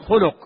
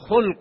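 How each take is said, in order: First: The word has two u vowels, khuluq. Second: The word has one short vowel, khalq. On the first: It is a good trait of character. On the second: It is something of natural human makeup.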